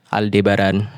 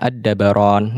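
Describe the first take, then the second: First: A clear l sound comes before the d. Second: The l blends into the d, unheard. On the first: This is how Europeans read it. "alif lamnya dibaca" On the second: This is the original Arabic form.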